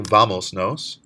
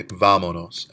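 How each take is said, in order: First: Said in the usual way. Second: Vámonos with the VA syllable leaned on, said louder; stress on VÁ. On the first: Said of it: "Instead of saying". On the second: Shown as a demonstration. Teacher contrasts vámonos with vamos nos, stressing VA. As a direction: hit the first syllable of vámonos. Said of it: "three syllables back on the strong vowel".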